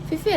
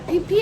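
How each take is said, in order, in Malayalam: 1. ആ പേര് F ശബ്ദങ്ങളോടെയാണ് പറയുന്നത്. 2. ആ പേര് P ശബ്ദങ്ങളോടെയാണ് പറയുന്നത്. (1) "ഫിഫി അല്ല" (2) "പിപി ഐലൻഡ് എന്നായിരുന്നു ഇവിടുത്തെ ഒരാൾ ഇന്നലെ ഞങ്ങൾക്ക് പറഞ്ഞു തന്ന"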